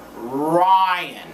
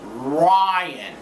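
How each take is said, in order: First: The R sound is strong and clearly pronounced. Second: The R sound is strong and clearly pronounced.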